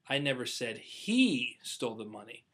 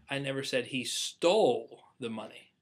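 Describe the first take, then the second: First: The stress is on "he". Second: The stress is on "stole".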